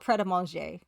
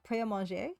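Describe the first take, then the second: First: The T at the end of prêt is pronounced. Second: The T at the end of prêt is silent. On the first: This is how people in Britain say it. The speaker calls it wrong. "They pronounce the T" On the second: This is how it is said in French. The speaker calls it right. "en français, it would be prêt"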